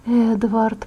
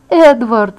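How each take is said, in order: First: Soft, weak call of the name; faint call. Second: Urgent cry of the name. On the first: Injured girl slipping into darkness, faint call. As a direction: call out with almost no voice. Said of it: "не услышала своего голоса". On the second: Injured girl losing sight of Edward, crying out. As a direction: cry out for him before fading. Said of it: "закричала я". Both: A narrator's reading.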